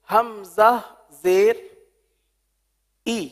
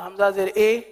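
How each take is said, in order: First: The final vowel is a clear, high ee. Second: The final vowel is a spread, lower e. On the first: The speaker calls it right. "ये है मारूफ तरीका" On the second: The speaker calls it wrong. "तो ये मजहूल हो जाएगा"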